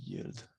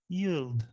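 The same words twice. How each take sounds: First: Said in the usual way. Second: A playful English accent on Yield. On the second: Shown as a demonstration. Host shows off English accent on Yield. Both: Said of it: "Super accent anglais".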